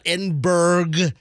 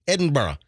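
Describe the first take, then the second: First: The ending sounds like 'burg' with a hard g. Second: The ending sounds like 'burra' with no hard g. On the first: The speaker calls it wrong. "It's not Edinburgh. It's not like Saint Petersburg" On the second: The speaker calls it right. "That's how you say it"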